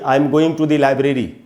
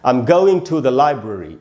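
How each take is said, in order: First: Library lacks stress on its first syllable. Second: Library has stress on its first syllable. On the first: The speaker calls it wrong. "ऐसे English नहीं बोलेंगे हम" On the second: The speaker calls it right. "इस प्रकार से बोलना चाहिए"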